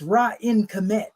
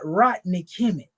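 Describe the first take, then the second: First: The first word is said as 'Ra-in'. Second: The first word is said as 'Rodney'. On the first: The speaker calls it right. "It's Ra-in Kemet. Say it right" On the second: The speaker calls it wrong. "it's not Rodney Kemet"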